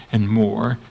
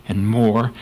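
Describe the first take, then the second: No difference in how they are said.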